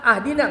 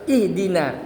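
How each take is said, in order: First: The word begins with the vowel a. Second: The word begins with the vowel i. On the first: The speaker calls it wrong. "ahdina enggak boleh juga" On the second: The speaker calls it right. "harus ihdina"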